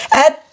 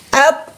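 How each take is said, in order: First: "At" cut off, then a puff of air escapes; AT released with breath. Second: "Ap-" as a heavy t stop, sealed without a puff; no breath released. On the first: Teacher testing the letter ta, "At" with a breathy release. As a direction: stop the sound of "At", then let breath out. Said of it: "ada napas keluar". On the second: Teacher testing the heavy letter, breathless stopped "Ap-". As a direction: cut "Ap-" off and let no air out. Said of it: "tidak ada napas keluar". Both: Shown as a demonstration.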